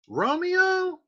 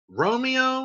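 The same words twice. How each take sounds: First: Romeo? swooping much higher, incredulous; mocking question. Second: Mocking. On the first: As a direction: scoff at the name as a joke. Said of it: "Scott's like". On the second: Nurse mocking the name.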